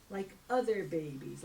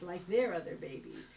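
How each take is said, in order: First: Said in the usual way. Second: Pointed emphasis on "their"; stress on THEIR. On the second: Acted. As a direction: correct yourself, leaning on "their". Repeats adding the word "their.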